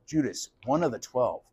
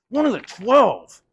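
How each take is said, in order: First: Softer, lower, as the truth sinks in; murmured realization; hushed dawning. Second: "one of the twelve" slow, higher and louder; emphatic repeated echo; stunned emphasis. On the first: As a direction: say it quietly to yourself. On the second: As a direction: drive home "one of the twelve" in disbelief. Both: Acted. Letting the word sink in.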